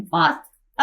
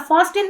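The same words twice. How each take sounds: First: "फास्ट" said as one smooth word, t silent, like "fasen"; teacher models "फास्ट" with the t dropped; correct pronunciation. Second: "फास्ट एन" split in two with a hard t, as it is spelt; spell-reading "फास्ट एन" with the silent t sounded; wrong pronunciation. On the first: Teacher shows students the right way to say fasten, pronunciation demo. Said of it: "अब फास्ट एन नहीं पढ़ना इसको". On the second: Teacher shows students how not to read fasten, mock mistake. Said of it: "नहीं पढ़ना इसको". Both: Shown as a demonstration.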